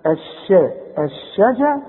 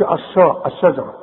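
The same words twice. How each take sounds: First: الشجا broken up, thin bright-vowelled sha; light sheen. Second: الشجرة with a dark, thick sha; wrong heavy sheen. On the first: Quran teacher builds الشجرة in pieces, light sheen. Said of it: "هنقول ايه ده؟". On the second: Quran teacher warns about الشجرة, heavy mistaken sheen. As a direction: round the a after sh in الشجرة. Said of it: "اذا ما تقولش". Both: Shown as a demonstration.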